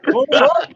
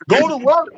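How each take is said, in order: First: Much higher rising shout, repeated; rallying cry echoed; hype call again. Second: Much higher, rising rallying cry; punchy sign-off chant; hype call. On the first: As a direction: push the crowd one more time. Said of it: "repeated sign-off slogan". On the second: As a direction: fire up the audience. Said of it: "show sign-off slogan". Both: Real, not acted.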